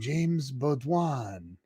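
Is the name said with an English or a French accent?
French. The name is said with a French accent. A phone assistant said it this way. The speaker calls it wrong. "where did the French accent come from"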